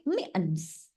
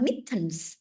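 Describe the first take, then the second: First: Mittens with the t swallowed, like mi-ens; American mittens. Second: Mittens with a clear t sound; British mittens. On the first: Teacher showing students the American mittens. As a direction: drop the t in mittens, soft and slow. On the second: Teacher contrasting British mittens for her students. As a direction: say mittens crisply, t fully pronounced. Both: Shown as a demonstration. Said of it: "bukan mittens, tapi mittens".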